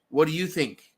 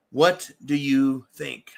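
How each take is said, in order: First: Said in the usual way. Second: "What do you think?" slowed down, every word landed deliberately; drawn-out, insistent repeat of the question; slow pointed repeat. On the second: Shown as a demonstration. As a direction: ask again, slower, pressing the listeners.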